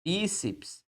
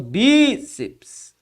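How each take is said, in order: First: Said in the usual way. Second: "Bíceps" with a long, strong Bí, then a short ceps; stress on BÍ. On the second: Shown as a demonstration. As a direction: draw out and hit the Bí of "Bíceps". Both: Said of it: "a sílaba tônica nesta posição".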